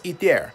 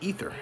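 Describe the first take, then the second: First: The name ends with an 'air' sound. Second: The name ends with an 'er' sound. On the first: "I know it's eat there" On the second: "but I keep thinking ether"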